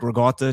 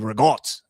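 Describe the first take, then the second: First: The final vowel of the word is pronounced. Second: The final vowel of the word is dropped. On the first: The speaker calls it right. "if you say like" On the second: The speaker calls it wrong. "they don't pronounce the vowels at the end of the words"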